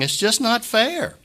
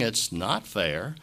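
First: High, slow, pained quote of grieving people; mourners' protest. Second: Low, slow, soft "not fair" with NOT leaned on; quiet agreement. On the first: Retold or imitated. Pastor quoting mourners at a funeral, high and pained. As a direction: voice the hurt of those at the funeral. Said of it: "people coming up and saying". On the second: Shown as a demonstration. Pastor conceding to his congregation, low and slow. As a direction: concede it gently, stretching "not". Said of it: "humanly speaking".

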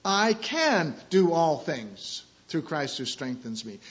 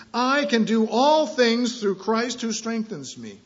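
First: "can" stressed, slow and steady. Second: "all" drawn out and punched, slow and high; stress on all. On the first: Pastor showing the verse to church, "can" stressed. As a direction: put the weight on the word "can". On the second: Pastor showing the verse to church, "all" stressed. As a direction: lean hard on the word "all". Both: Shown as a demonstration. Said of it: "emphasizing the different words".

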